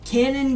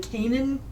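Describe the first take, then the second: First: The first syllable sounds like 'can'. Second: The first syllable sounds like 'cane'. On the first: The speaker calls it right. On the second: The speaker calls it wrong.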